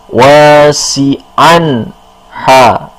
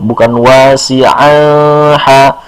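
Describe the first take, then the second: First: The n sound is pronounced clearly. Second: The n sound is not pronounced clearly. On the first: The speaker calls it right. "An dibacanya jelas" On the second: The speaker calls it wrong.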